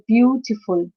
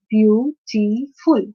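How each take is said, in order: First: Said in the usual way. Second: "beautiful" slowly as beau-ti-ful; syllable by syllable. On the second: Shown as a demonstration. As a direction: break "beautiful" into three separate syllables. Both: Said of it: "let's move to the third syllable".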